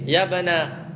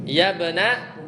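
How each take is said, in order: Both takes have the same delivery.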